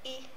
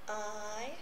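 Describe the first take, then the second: First: The vowel sound is short. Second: The vowel sound is long. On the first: "now the short vowel sounds" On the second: "they are the long vowel sounds"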